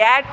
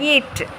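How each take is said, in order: First: The vowel sounds like the ay in day. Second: The vowel sounds like the ee in see. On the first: The speaker calls it wrong. "ஏட் இல்லை" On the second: The speaker calls it right. "ஈயும் ஏவும் சேர்ந்தாலே ஈ"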